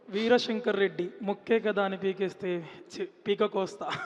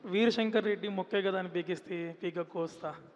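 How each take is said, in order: First: It is delivered dramatically, like a film dialogue. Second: It is said plainly, like an interview question.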